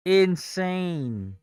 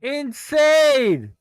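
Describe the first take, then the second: First: Said in the usual way. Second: High, loud, drawn-out cry of disbelief; stunned shout. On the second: Real, not acted. Trader watching the price crash, loud stunned cry. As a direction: let it burst out in shock. Reacting to stock collapse.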